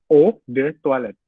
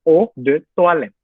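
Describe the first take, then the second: No difference in how they are said.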